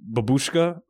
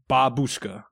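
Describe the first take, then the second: First: The stress is on the second syllable. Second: The stress is on the first syllable. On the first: The speaker calls it wrong. "The emphasis was on the wrong syllable" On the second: The speaker calls it right. "Now I know it's Babushka"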